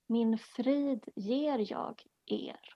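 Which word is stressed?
er. The stress is on the word 'er'.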